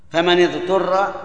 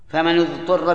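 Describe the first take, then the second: First: فمن اضطر with the nun of فمن read with kasra, famani-ḍṭurra; فمن اضطر, kasra on the nun before the hamzat wasl; فمن اضطر, nun with kasra, famanidturra. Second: فمن اضطر with the nun of فمن read with damma, famanu-ḍṭurra; فمن اضطر, damma on the nun to match the damma of the ṭa; فمن اضطر, nun with damma, famanudturra. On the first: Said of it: "بالكسر". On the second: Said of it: "بالضم". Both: Shown as a demonstration.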